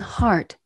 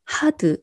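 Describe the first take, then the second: First: The word is said as one syllable. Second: The word is said as two syllables. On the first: The speaker calls it right. "영어로는 hard, 이름절이에요" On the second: The speaker calls it wrong. "우리나라 말로 음을 표기하면 hard, hard, 이음절이에요"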